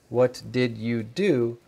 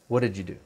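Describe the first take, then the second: First: Each word is said fully and separately. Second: The words are reduced and run together. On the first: This is the form learners study. "you study this" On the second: This is how native speakers actually say it. "But we pronounce"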